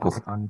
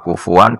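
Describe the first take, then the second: First: A glottal stop comes before the final syllable. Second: A w sound links the second and third syllables. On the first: "kaf fa hamzah" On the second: "Beliau baca itu ... kufuwan ahad bilwawi"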